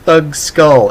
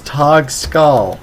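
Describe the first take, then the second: First: The first word sounds like 'thug'. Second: The first word sounds like 'tog'. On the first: The speaker calls it wrong. "It's not Thug Skull" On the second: The speaker calls it right. "it's Tog Skull"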